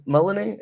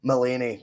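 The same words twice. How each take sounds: First: Mullany as MULL-uh-nee, higher pitch; unsure pronunciation. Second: Mullany as muh-LAY-nee, falling at the end; corrected pronunciation. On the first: Host unsure of a caller's surname, Mullany as MULL-uh-nee. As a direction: try Mullany with a short, weak middle syllable. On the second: Host repeating the corrected surname, Mullany as muh-LAY-nee. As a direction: say Mullany with a long LAY in the middle. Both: Real, not acted. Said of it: "how would you pronounce that".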